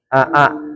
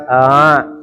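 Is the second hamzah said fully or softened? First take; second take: fully; softened. First: Both glottal catches are pronounced fully and separately. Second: The second glottal catch is softened and drawn out. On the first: The speaker calls it wrong. "tidak boleh aa" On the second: The speaker calls it right. "tapi a, ditarik ya"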